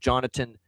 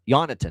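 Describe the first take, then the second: First: The name starts with a J sound. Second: The name starts with a Y sound. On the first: The speaker calls it wrong. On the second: The speaker calls it right.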